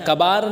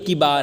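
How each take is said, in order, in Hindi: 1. पहला स्वर 'a' की आवाज़ है। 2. पहला स्वर 'i' की आवाज़ है। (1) "कबार नहीं है" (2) "बल्कि किबार है"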